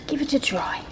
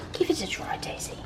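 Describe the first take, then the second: First: Said in the usual way. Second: Soft coaxing whisper; hushed encouragement to the dog. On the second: Real, not acted.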